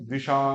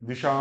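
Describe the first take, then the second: First: The final vowel is drawn out long. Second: The final vowel is kept short. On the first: The speaker calls it wrong. "अगर आ को भी बड़ा बोलेंगे तो ... ये भी गलत है" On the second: The speaker calls it right. "आ को हमने क्या कर दिया, ह्रस्व किया, शुद्ध उच्चारण"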